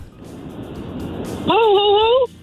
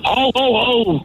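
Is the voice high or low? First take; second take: high; low. First: It is said in a high voice. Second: It is said in a low voice.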